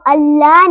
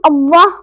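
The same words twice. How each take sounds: First: अल्लाह with a light, thin L; wrong thin Allah. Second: अल्लाह with a thick, rounded L; correct heavy Allah. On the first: Teacher shows what not to say, thin अल्लाह. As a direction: keep अल्लाह unrounded and light. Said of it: "अल्लाह नहीं पढ़ेंगे". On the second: Teacher names the right form first, heavy अल्लाह. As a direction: fill the mouth on अल्लाह. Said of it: "अल्लाह को अल्लाह नहीं पढ़ेंगे". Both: Shown as a demonstration.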